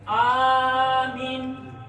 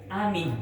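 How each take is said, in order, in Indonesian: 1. Vokal pertama dibaca panjang. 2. Vokal pertama dibaca pendek. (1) "hamzahnya dibaca panjang, mimnya dibaca pendek" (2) "hamzahnya boleh dibaca pendek, mimnya juga dibaca pendek"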